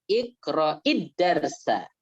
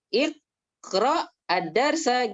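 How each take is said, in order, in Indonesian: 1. Vokal i menghubungkan iqra ke darsa. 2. Kedua kata tetap terpisah, tanpa vokal i penghubung.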